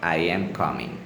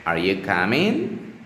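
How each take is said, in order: First: "I am coming." with pitch dropping at the end; falling statement intonation. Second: "Are you coming?" with pitch climbing at the end; rising question intonation. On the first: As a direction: let "coming" fall as a plain declarative. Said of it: "for at the end of a". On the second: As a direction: lift "coming" upward as a yes-no question. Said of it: "pitch might rise at the end". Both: Shown as a demonstration.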